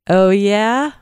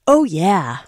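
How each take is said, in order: First: It is a question, rising at the end. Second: It is an excited exclamation, falling at the end.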